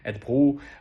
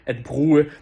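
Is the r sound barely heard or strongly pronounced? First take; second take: barely heard; strong. First: The r sound is barely heard. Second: The r sound is strongly exaggerated. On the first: "в такому реальному данському ритмі" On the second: "прям супер виражено"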